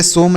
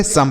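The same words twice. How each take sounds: First: सोम with a long 'o' vowel; wrong reading. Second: सम with a short 'uh' vowel; correct reading. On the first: Teacher telling students what to avoid, सोम with long 'o'. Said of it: "इसे सोम नहीं पढ़ेंगे". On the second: Teacher giving students the right reading, सम with short 'uh'. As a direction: say सम with a short, lower-pitched uh. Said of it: "सम पढ़ेंगे". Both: Shown as a demonstration.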